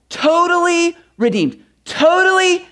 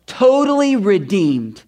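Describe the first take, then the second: First: "Totally redeemed" high and jubilant; exultant. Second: Slow, weighty "totally redeemed"; slow emphasis. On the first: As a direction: lift "Totally redeemed" up in triumph. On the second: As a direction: let "totally redeemed" land slowly and heavily. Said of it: "That one play". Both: Shown as a demonstration.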